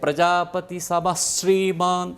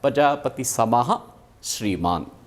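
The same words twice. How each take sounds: First: Samah ends with a doubled sh sound. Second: Samah ends with a breathy h sound. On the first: The words are joined as in the verse. "अभी श्लोक में कैसे है" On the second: The words are split apart. "पदच्छेद किया तो विसर्ग हो जाएगा"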